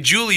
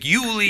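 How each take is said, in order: First: The name is said with an American J sound. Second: The name is said with an Eastern European Y sound. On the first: "you wouldn't say Julie" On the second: "you'd be like Yuli"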